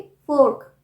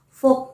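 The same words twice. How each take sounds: First: "फोर्क" with the r clearly heard; r sounded. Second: "फोक" with no r before the k; r left out. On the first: Teacher showing fork has r sound, r sounded. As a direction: model "फोर्क", r before the k. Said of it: "र का sound आएगा". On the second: Teacher warning against saying folk for fork, r left out. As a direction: say "फोक", straight from vowel to k. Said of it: "फोक नहीं". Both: Shown as a demonstration.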